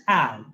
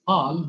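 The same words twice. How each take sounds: First: "pal" with a front a, as in "cat"; American pronunciation. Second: "pal" with a long open ah, like "paal"; non-American pronunciation. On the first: Teacher shows students how Americans say it, "pal" with a flat cat vowel. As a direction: say "pal" to rhyme with Al. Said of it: "they pronounce it as pal". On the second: Teacher shows students how Americans don't say it, "pal" with an ah. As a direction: say "pal" with a back ah vowel. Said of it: "they don't pronounce it as pal". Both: Shown as a demonstration.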